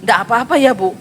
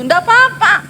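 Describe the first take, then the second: First: Said in the usual way. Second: High, light and breezy nggak apa-apa; breezy reassurance. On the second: Retold or imitated. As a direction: toss off "apa-apa" high and easy. Pastor retells own reassurance. (santai dan tinggi)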